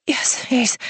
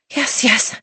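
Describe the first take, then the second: First: High whispered yes; breathless whisper. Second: Higher, pleading; breathy eager yes. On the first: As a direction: gasp it out barely voiced. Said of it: "I barely got my answer out". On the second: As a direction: urge him on. Heroine pleading, voiced. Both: A narrator's reading.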